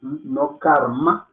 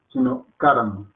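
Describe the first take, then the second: First: "karma" slow and full, final a clearly said; wrong karma, drawn out. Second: "karma" with the final a nearly dropped; correct karma. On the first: Teacher shows the wrong way, slowly. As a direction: stretch "karma" out, every vowel full. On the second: Teacher then gives the right way, final vowel faint. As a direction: clip "karma", let the end fade. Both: Shown as a demonstration.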